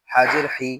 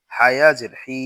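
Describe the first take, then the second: First: হি with a short i; no stretch. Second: হি with a long i; হি held long; stretched vowel. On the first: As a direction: cut the vowel of হি short. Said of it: "শুধু জের থাকলে টান দিব না". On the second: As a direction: draw out the vowel of হি. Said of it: "তখন জেরে টান দিব". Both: Shown as a demonstration.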